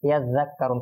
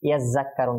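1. 'ya'-এর পরের ব্যঞ্জনটি একটি নরম dh। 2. 'ya'-এর পরের ব্যঞ্জনটি j-এর মতো উচ্চারিত হয়। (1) "যেমন কি এটা হবে" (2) "অনেকে পড়বেন কিরকম"

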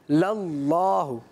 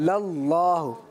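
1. L کی آواز موٹی اور بھاری ہے۔ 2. L کی آواز موٹی اور بھاری ہے۔

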